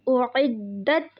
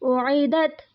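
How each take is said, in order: First: The d sound is held long and doubled. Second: The d sound is short and single. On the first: The speaker calls it right. "तशदीद को दो दफ़ा पढ़ते हैं और थोड़ा ज़ोर लगाकर पढ़ते हैं" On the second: The speaker calls it wrong. "यहाँ पर हमने उसको सिंपल पढ़ लिया"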